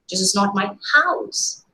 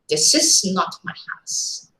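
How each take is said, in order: First: The stress falls on the word house. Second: The stress falls on the word not. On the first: The building is something other than a house. "Probably some other construction, maybe a go down" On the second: Ownership of the house is flatly denied. "You are categorically stating, denying ownership"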